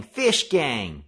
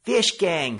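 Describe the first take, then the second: First: Loud panicked cry; frightened warning yell; terrified cry. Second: High, loud panicked cry; frightened warning yell; terrified cry. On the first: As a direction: echo the warning as you run. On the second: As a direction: shout it like you're fleeing in terror. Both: Acted. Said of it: "terrified cries of".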